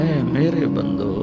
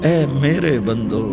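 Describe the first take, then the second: First: It is said in a warm, loving tone. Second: It is said in a warm, loving tone.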